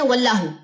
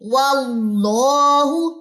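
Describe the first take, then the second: First: The vowel after the l is kept short. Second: The vowel after the l is held for two counts. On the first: The speaker calls it wrong. "बहुत से लोग कैसे पढ़ते हैं" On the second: The speaker calls it right. "टू counts लंबा करेंगे"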